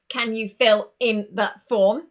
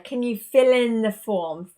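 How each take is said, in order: First: Each word is said separately, without linking. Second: The words run together, with fill linked to in. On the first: The speaker calls it wrong. "We would not sound like a robot" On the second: The speaker calls it right. "We want to bring them together"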